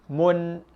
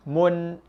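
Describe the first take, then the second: First: The n sound is pronounced fully and clearly. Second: The n sound is pronounced fully and clearly.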